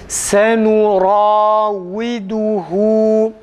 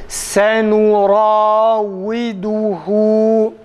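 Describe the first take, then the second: No difference in how they are said.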